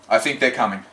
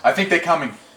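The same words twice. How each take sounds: First: The line is delivered fuller and heavier. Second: The line is delivered lighter and softer.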